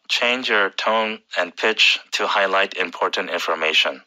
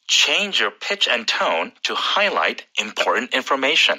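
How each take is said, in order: First: It is said flatly, with little change in pitch. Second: It is said lively, with clear changes in pitch. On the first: The speaker calls it wrong. "very monotone" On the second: The speaker calls it right. "this is the way you should say it"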